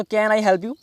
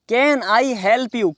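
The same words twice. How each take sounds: First: Said in the usual way. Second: Slow, word-by-word "Can I help you"; slow model phrase. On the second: Shown as a demonstration. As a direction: model it slowly for learners. Teacher repeats the phrase slowly. (धीरे-धीरे, शब्द अलग करके)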